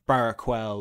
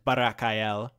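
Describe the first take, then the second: First: The final syllable with the L is unstressed. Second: The final syllable with the L is stressed. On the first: "you could also say like" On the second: "I've been pronouncing it to emphasize the L at the end"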